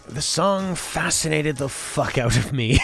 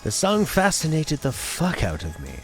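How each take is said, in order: First: It is read in a plain voice. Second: It is read in a stuffy, posh voice.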